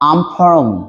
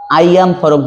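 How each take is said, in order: First: It is contracted into one short syllable, I'm. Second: It is said as two full separate words. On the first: The speaker calls it right. "আপনি বলবেন আমফরম" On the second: The speaker calls it wrong. "হবে না"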